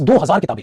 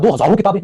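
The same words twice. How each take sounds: First: हज़ार ending plainly on "r", no "-on"; singular हज़ार. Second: हज़ारों with an added nasal "-on" ending; plural हज़ारों. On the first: Teacher giving the correct Hindi, हज़ार ending on "r". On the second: Teacher showing what not to say, हज़ारों with "-on" ending. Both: Shown as a demonstration. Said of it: "ये तो नहीं बोलो".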